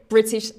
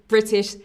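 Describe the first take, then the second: No difference in how they are said.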